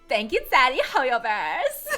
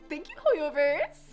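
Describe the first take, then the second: First: It is said in a put-on character voice. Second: It is said in the speaker's normal voice.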